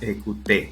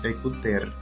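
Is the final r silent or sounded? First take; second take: silent; sounded. First: The word ends in a bare é vowel. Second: The final r is pronounced at the end. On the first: The speaker calls it right. "Se menciona la e, pero como si estuviera acentuada" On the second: The speaker calls it wrong. "no decimos écouter"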